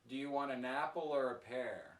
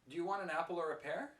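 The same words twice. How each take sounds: First: The voice falls at the end. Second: The voice rises at the end. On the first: The listener is asked to choose one of the two. "when I say with this intonation" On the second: The listener is asked whether they want anything. "My intonation sounds like"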